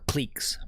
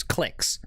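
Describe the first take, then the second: First: "cliques" with a long ee, like "cleeks"; long-vowel pronunciation. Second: "cliques" with a short vowel, like "clicks"; short-vowel pronunciation. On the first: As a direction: say "cliques" to rhyme with "leaks". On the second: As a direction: say "cliques" to rhyme with "licks". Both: Shown as a demonstration. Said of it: "however you guys pronounce".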